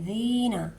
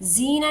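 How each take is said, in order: First: The first consonant is said softly, with the tongue relaxed. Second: The first consonant is said hard, like a plain z. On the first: The speaker calls it right. "दाल को नरमी से पढ़ेंगे" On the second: The speaker calls it wrong. "जीना नहीं बोलेंगे"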